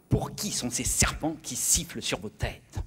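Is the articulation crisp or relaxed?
crisp. Each sound is crisply and strongly articulated. "en français, on articule énormément"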